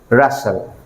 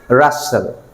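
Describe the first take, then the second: Both takes have the same delivery.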